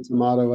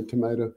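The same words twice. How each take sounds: First: "tomato" said to-MAH-to; broad AH in the middle of "tomato"; tomahto pronunciation. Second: "tomato" said to-MAY-to; long A in the middle of "tomato"; tomayto pronunciation. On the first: Guest showing that words vary, "tomato" as to-MAH-to. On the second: Guest giving his own way, "tomato" as to-MAY-to, softer. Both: Shown as a demonstration. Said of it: "It's pronounced a lot of different ways".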